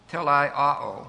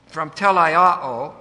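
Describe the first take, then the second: First: Said in the usual way. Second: Telaiao said slowly, syllable by syllable; Greek word. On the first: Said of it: "In English, the verb would look". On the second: Shown as a demonstration. Teacher introducing the Greek telaiao, slow. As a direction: spell out telaiao slowly for the class. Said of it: "The word perfect is".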